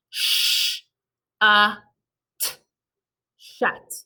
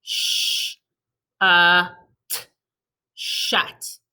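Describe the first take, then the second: First: "Sh-, uh, t" split into separate sounds, then "shut" blended; tapping sounds. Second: "Sh-, uh, t" whispered apart, then "shut"; tapping sounds. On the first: Teacher tapping out the word for kids, sound by sound. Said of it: "Let's tap this word". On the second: Teacher tapping the word again with the class, segmented. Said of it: "Let me see everyone tap it". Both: Shown as a demonstration.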